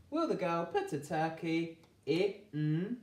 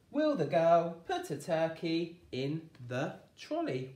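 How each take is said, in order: First: Put-on slow, each word stretched for children; a teacher stringing the sounds together; slow blending. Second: Said in the usual way. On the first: Shown as a demonstration. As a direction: piece it together slowly. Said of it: "blending the sentence slowly". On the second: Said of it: "sentence said whole".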